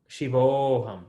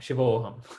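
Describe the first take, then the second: First: The vowel before 'ham' is drawn out long. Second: The vowel before 'ham' is kept short. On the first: The speaker calls it wrong. "No, I am saying it long. It's not long" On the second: The speaker calls it right. "It's not long"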